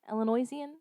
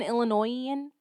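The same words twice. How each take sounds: First: Soft, tentative "Illinoisan" said ill-uh-NOY-zee-un. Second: "Illinoisan" said ill-uh-NOY-un, no Z sound; Illinoisan without Z. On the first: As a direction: add a zee to "Illinoisan", trying it out softly. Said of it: "as an Illinoisan". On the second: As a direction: end "Illinoisan" on a plain noy-un. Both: Shown as a demonstration.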